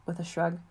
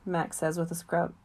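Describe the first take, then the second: First: "shrug" said correctly as shrug, fixing the slip; corrected word. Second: "scrub" read by mistake, said as skrub; misread word. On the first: Narrator corrects the misread word: "shrug" said clearly. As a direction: reread with "shrug" pronounced properly. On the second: Narrator misreads the line: "scrub" spoken plainly. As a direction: narrator slips, reading "scrub" for shrug. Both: Real, not acted.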